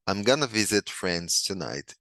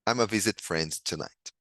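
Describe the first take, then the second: First: Going to is reduced to gonna. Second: Going to is reduced to a single vowel. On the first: "Se eu quiser pronunciar com o gonna" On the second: "E se eu quiser pronunciar como I'm, a"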